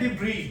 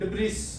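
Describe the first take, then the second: First: The word ends in a vowel, no s. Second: The word ends with a clear s sound. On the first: The speaker calls it right. "ये word है डिब्री" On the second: The speaker calls it wrong. "हम इसको डाइब्रिस पढ़ते आ रहे हैं"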